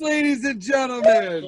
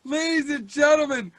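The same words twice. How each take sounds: First: Louder, higher announcer shout; a loud ringside-style call. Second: A loud, showy opening call to the room; a loud announcer's opener; announcer intro. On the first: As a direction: belt it out like the MC's big finish. Host closing the introduction. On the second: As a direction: open the show like an MC. Host opening the show. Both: Acted.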